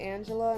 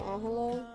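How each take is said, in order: First: The name is said with English sounds. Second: The name is said with Spanish sounds. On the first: This is how the mother's side says the name. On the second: This is the original Mexican form of the name. "instead of Angela"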